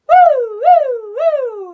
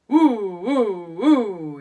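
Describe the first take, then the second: First: It is said in a high voice. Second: It is said in a low voice.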